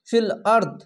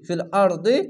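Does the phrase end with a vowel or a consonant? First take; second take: consonant; vowel. First: The phrase ends on a bare 'd' consonant. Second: The phrase ends on a short 'i' vowel. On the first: The reader stops at this point. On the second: The reading continues without stopping.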